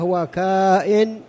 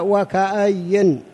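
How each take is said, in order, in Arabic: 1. فيه صوت ألف ممدودة. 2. فيه حركة قصيرة وياء مشددة. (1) "والقراءة الثانية" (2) "القراءة الأولى وكأي كما هو موجود في هذا المصحف"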